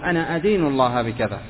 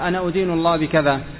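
First: The verb begins with an 'a' vowel. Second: The verb begins with a 'u' vowel. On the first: It means taking it as one's religion before God. The speaker calls it right. "وإنما قل أنا أدين الله بكذا" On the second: It means accusing God of something. The speaker calls it wrong. "فلا تقل أنا أدين الله بكذا، خطأ"

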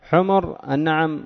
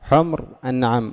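First: The m is followed by a short u vowel. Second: The m has no vowel after it. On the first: The speaker calls it wrong. "حمر النعم خطأ، ضم الميم خطأ" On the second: The speaker calls it right. "مسكان الميم وفتح النون"

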